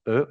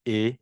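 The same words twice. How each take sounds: First: The letter is pronounced as in French. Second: The letter is pronounced as in Dutch. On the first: The speaker calls it wrong. "on ne dit pas E" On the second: The speaker calls it right. "en néerlandais, on dit E"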